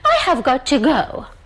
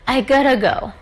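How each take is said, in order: First: Every word is said fully and separately. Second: Have is dropped and got to blends together. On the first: "you don't need to say" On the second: "we normally drop have and we say it in a kind of very um, e- easier"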